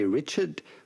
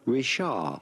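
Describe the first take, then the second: First: It is said the English way, with a final D. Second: It is said the French way, with a silent D. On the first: The speaker calls it wrong. "It's not like in English, you do not say Richard" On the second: The speaker calls it right. "Do not pronounce the D"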